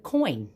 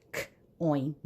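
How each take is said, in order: First: Said in the usual way. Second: "k, oin" split after the first consonant; a lone k, then oin; sounded out. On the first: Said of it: "I have the word coin". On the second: Shown as a demonstration. Teacher showing where oi sits, k and oin sounded apart. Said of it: "I hear oi in the middle".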